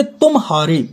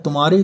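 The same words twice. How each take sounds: First: तुम, a small gap, then हारे; split by juncture. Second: तुम्हारे as a single word; joined without pause. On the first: Teacher showing two words, तुम and हारे apart. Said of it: "मतलब तुम हार गए". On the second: Teacher joining the words, तुम्हारे with no gap. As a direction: run तुम into हारे as तुम्हारे. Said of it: "इसी को जोड़ दो तो हो जाता है". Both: Shown as a demonstration.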